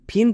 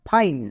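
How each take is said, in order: First: The vowel is a short 'i' sound. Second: The vowel is a long 'eye' sound. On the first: The speaker calls it wrong. "ফিন কিন্তু না" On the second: The speaker calls it right. "আই এর long sound আই হবে"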